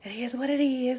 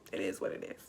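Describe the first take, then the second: First: Louder firm repeat; emphatic. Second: Low unvoiced whisper. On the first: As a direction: say it out loud firmly. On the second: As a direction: whisper it under breath. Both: Real, not acted.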